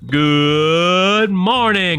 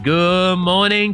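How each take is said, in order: First: It is said in a showy radio-host voice. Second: It is said in an ordinary conversational voice.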